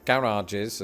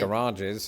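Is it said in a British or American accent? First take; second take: British; American. First: It is said in a British accent. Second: It is said in an American accent.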